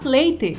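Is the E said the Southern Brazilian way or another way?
Southern. The final E has the Southern regional sound. "no Sul, é a letra E que é soada de jeito diferente"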